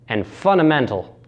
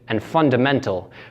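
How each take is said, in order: First: A consonant sound is dropped. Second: All the consonant sounds are pronounced. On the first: "when dropping these sounds becomes" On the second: "found in words like"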